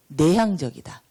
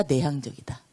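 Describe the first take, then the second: First: Said in the usual way. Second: "내향적이다?" asked with a questioning rise; asking question. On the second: Shown as a demonstration. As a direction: offer "내향적이다" as an option, rising at the end. (질문하듯 올려서 "내향적이다?") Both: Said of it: "외향적이다".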